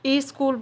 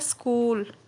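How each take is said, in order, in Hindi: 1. शब्द से पहले एक अतिरिक्त स्वर आता है। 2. शब्द सीधे s ध्वनि से शुरू होता है। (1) "कई लोग ई स्कूल बोलते हैं" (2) "शुद्ध शब्द क्या होता है?"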